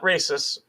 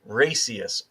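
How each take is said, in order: First: It is said as the standard word 'racists'. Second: It is said as 'racy-est', with an extra vowel. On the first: This is the normal word. "not racists" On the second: This is how someone else misspelled it. "R A C I E S T"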